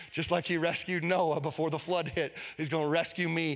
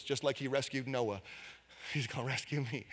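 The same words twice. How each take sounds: First: Said in the usual way. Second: Soft personal repeat. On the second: Acted. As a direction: drop to a soft, intimate voice. Repeats the line softly, personally.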